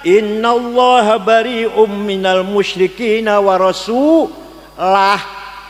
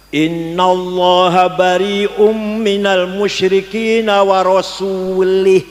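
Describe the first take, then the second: First: The last word has a u vowel after rasul. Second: The last word has an i vowel after rasul. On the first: God and His messenger are both free of the idolaters. The speaker calls it right. "Yang benar" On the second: God is free of the idolaters and of His messenger. The speaker calls it wrong. "Salah. Kalau warasuli"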